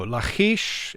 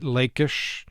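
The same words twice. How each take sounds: First: The middle consonant is a harsh guttural sound. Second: The middle consonant is a soft plain sound. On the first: "perhaps the Hebrew pronunciation" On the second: "Some pronounce it"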